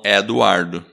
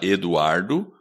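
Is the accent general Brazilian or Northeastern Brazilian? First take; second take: Northeastern; general Brazilian. First: It is said with a Northeastern accent on E. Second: It is said in a general Brazilian accent.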